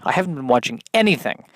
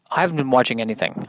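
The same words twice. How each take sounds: First: "anything" punched on its first syllable; stress on ANYTHING. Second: Said in the usual way. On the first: Real, not acted. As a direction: repeat it, leaning hard on "anything". Repeats the line with emphasis.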